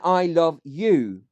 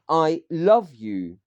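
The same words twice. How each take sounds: First: The stress is on "you". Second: The stress is on "love".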